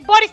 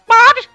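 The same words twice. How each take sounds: First: It is said in a normal voice. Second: It is said in a chicken-like voice.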